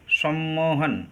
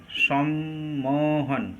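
First: Said in the usual way. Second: Slow, segmented সম্মোহন, as সম-মো-হন; syllable split. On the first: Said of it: "এখানে কয়টা মুক্ত দল". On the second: Shown as a demonstration. Teacher counts open syllables in সম্মোহন, syllable split. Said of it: "এখানে কয়টা মুক্ত দল আছে".

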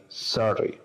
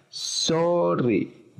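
First: "sorry" with an open "ah" in the first syllable; first vowel like A. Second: "sorry" with a long Spanish O in the first syllable; drawn-out "sorry", said as a Spanish speaker reads it; Spanish-style O. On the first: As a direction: say "sorry" as "SAH-ree". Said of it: "como una A". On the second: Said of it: "como lo decimos en el español". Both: Shown as a demonstration.

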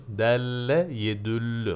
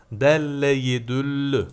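First: Said in the usual way. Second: Delle yedüllü read louder, each syllable marked; read out firmly. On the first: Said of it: "Muzaf fiil olur değil mi". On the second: Shown as a demonstration. Teacher reading the Arabic text to a student, firm and louder. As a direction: lay it out clearly for the student, delle with a doubled l. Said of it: "İsmun öyle bir isim ki bunlar".

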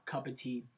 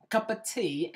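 First: Said in the usual way. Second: Higher-pitched fake British echo; badly faked British, pitched up; mock British accent. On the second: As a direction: repeat it in a playful British accent. Echoes his fake British opening.

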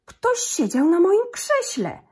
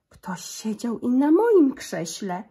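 First: Slow, much higher, louder angry papa bear; gruby zrzędliwy głos. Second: Slow, louder mama bear with a rise; cieńszy głosik. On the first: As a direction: bellow it slowly like an outraged big bear. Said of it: "grubym, zrzędliwym głosem". (tata niedźwiedź, zdenerwowany, woła wolno i głośno) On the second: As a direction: call out slowly and loudly, lifting the end. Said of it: "cieńszym głosikiem". (mama niedźwiedzica woła wolno i głośniej) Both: A narrator's reading.

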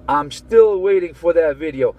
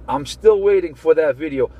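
Both takes have the same delivery.

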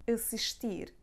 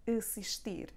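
The two takes are said the same way.

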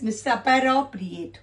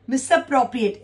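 First: Misappropriate with an extra vowel, "misa-para-priate"; misspelled reading. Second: Said in the usual way. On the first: Shown as a demonstration. Teacher shows students the misspelt word, read with an extra syllable. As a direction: sound out the faulty misappropriate with an added "a" after the p. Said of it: "which is wrong". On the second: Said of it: "Instead it is misappropriate".

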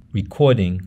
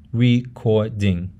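First: Said in the usual way. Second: Recording slowly split into re-cor-ding; syllable by syllable. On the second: Shown as a demonstration. Teacher breaks up an English example, syllable by syllable. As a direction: say recording in three separate syllables. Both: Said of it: "how you break up a word".

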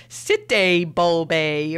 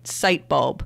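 First: Sitebulbe drawn out as "sit-day bol-bay"; bizarre mispronunciation. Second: Sitebulb said simply as "site-bulb", lower; standard pronunciation. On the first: Host recalling the tweet's odd options, Sitebulbe mangled slowly as "sit-day bol-bay". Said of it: "they were, like, really bizarre". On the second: Host sure of the sponsor's name, Sitebulb said as "site-bulb". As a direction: say Sitebulb as two English words, site and bulb. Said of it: "I'm saying it right". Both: Shown as a demonstration.

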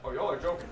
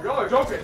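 First: Said in the usual way. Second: Louder, higher outburst; exasperated disbelief. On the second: Real, not acted. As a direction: raise it in disbelief. Louder second take.

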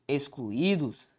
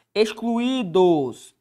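First: Said in the usual way. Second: Excluídos stretched slowly, each syllable clear, ex-clu-í-dos; teacher showing the hiatus in Excluídos; slow careful word. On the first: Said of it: "a regra do hiato". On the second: Shown as a demonstration. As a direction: draw out Excluídos for the students. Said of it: "Excluídos é a regra do hiato".

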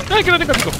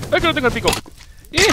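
First: High, louder wailing cry; loud high dismayed wail; louder alarmed wail. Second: High, alarmed cry; high cry of dismay; alarmed wail. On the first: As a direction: wail it even harder. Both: Real, not acted. Realizes he lost pickaxe.

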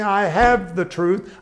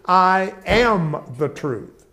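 First: "have" stressed with a rising tune, slow. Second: "am" stressed and falling, very slow. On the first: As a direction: lift "have" as the wrong version. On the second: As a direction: land hard on "am". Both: Shown as a demonstration. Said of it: "Jesus did not say".

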